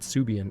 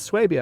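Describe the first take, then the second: First: The name begins with a plain 'soo' sound. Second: The name begins with a 'swah' sound. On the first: The speaker calls it wrong. "some people pronouncing it Subian" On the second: The speaker calls it right. "it's Swabia"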